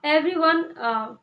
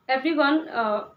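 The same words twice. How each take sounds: The two takes are said the same way.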